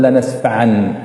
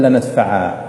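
First: لنسفعا ending in nun, lanasfa'an; reading form. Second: لنسفعا ending in a long a, lanasfa'a; pausal form. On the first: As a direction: close لنسفعا on an n. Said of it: "لكنك عندما تقرأ تقول". (لنسفعن بالنون في الوصل) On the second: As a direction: close لنسفعا on a plain long a. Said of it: "لو وقفت عليها تقول". (لنسفعا بالألف عند الوقف) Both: Shown as a demonstration.

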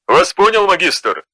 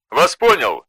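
First: Crisp acknowledgement. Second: Said in the usual way. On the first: A narrator's reading. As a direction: snap back an acknowledgement. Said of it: "отозвался Аргион". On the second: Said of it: "отозвался Белат".

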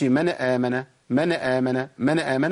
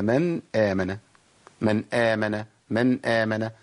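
First: "من آمن" run together as "mana-amana"; voweled noon error. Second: "من آمن" slow, ن fully closed before the hamza; correct clear noon. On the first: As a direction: slip a short vowel after the ن of "من". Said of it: "لا ما تنفعش". (تحريك النون خطأ في "من آمن") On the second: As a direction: land on the still ن of "من", then begin "آمن" cleanly. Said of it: "هي". (إظهار النون ساكنة في "من آمن") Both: Shown as a demonstration.

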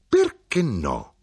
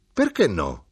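First: Perché no said very slowly with every syllable pressed; insistent, determined. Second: Said in the usual way. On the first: A narrator's reading. Mother to the widow, imposing her will, slow and insistent. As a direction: lean on Perché, slow and unyielding. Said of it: "armata di volontà di impormi". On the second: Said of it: "disse mia madre".

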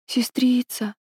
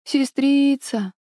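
First: Feverish. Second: Put-on delirious child, high and drawn out; feverish. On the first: Acted. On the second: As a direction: call out slowly as if in fever. (бредящий ребёнок, высоко и протяжно) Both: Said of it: "прошептал ребёнок в бреду".

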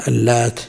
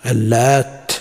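First: اللات with a single, light t at the end. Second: اللات with the final t doubled and held. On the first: Teacher showing the reading of اللات with a light t. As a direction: say اللات without doubling the final t. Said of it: "مخففة التاء". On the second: Teacher showing the other reading, اللات with a doubled t. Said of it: "من يقوله بتشديد التاء". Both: Shown as a demonstration.

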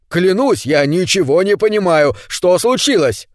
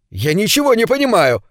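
First: Pleading, raised, stress on не; cry out. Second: A higher, half-desperate cry, stress on ничего; protest, leaning on ничего. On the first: Ned swearing to the neighbours, leaning on не. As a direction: swear it, hitting не in не понимаю. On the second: Ned crying out to the silent crowd, ничего stressed. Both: A narrator's reading. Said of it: "выкрикнул он".

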